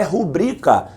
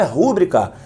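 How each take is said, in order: First: Rubrica stressed on the middle syllable, BRI; correct stress. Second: Rúbrica stressed on the first syllable, RÚ; wrong stress. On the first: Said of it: "A palavra é rubrica". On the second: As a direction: say rúbrica as RÚ-bri-ca, the mistaken way. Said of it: "A palavra não é rúbrica". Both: Shown as a demonstration.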